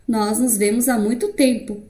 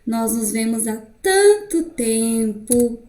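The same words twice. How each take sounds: First: Plain statement with TEMPO falling to a full stop; full-stop finality. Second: Slow reading, TANTO and TEMPO drawn out and left hanging; unfinished thought. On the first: Teacher repeating the full-stop example, final fall on TEMPO. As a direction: end firmly on TEMPO, voice dropping. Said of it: "eu dei a minha pausa absoluta". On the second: Teacher demonstrating the ellipsis, unfinished lingering on TANTO TEMPO. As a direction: stretch TANTO TEMPO as if more is left unsaid. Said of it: "o sentido de uma ideia inacabada". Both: Shown as a demonstration.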